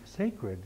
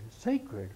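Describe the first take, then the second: First: Sacred? asked higher and tentative; puzzling out a word; questioning. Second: Sacred. said lower, settled and quiet; answering his own question; confirming. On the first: Working out the word sacroiliac. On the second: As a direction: land the word Sacred. as a discovery. Confirms the word after guessing. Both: Shown as a demonstration.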